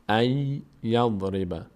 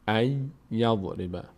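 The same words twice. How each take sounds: The two takes are said the same way.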